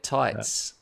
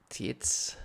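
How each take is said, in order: First: The name is said with an English reading. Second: The name is said with a German reading. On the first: The speaker calls it wrong. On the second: The speaker calls it right.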